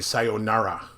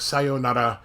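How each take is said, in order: First: The r is said as an English r. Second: The r is said close to an l. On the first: The speaker calls it wrong. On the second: The speaker calls it right.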